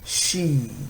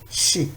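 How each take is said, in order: First: The vowel is long. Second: The vowel is short. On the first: "Now with long vowel" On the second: "kasra, shi"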